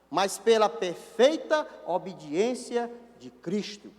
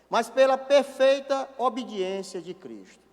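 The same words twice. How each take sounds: First: The phrase is spoken at a slow pace. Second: The phrase is spoken at a fast pace. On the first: The speaker calls it right. "vou falar mais devagarzinho" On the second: The speaker calls it wrong. "Eu falei muito rápido"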